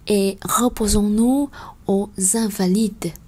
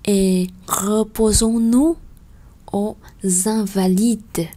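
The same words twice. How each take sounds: First: The phrase is read at a fast pace. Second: The phrase is read at a slow pace.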